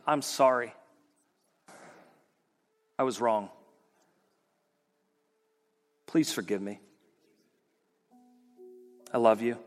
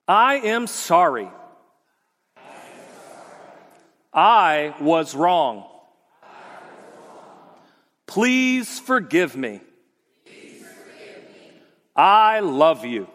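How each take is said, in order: First: It sounds heartfelt and genuine. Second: It sounds scripted, like a commercial.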